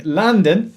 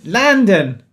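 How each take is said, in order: First: Said in the usual way. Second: Hammy Cockney London; Cockney accent. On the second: Shown as a demonstration. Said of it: "That's a really bad Cockney accent".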